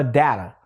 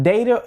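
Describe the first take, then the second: First: "data" with a short A, DAT-uh; DAT-uh pronunciation. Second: "data" with a long A, DAY-tuh; DAY-tuh pronunciation. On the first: Curious teacher polling viewers, "data" as DAT-uh. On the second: Curious teacher polling viewers, "data" as DAY-tuh. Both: Shown as a demonstration. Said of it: "Do you pronounce it data or data".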